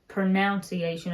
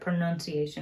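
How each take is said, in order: First: The word is said with an extra syllable. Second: The word is said without an extra syllable. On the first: This imitates someone else's pronunciation. The speaker calls it wrong. "She says pronunciation" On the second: This is the usual pronunciation. The speaker calls it right. "instead of pronunciation"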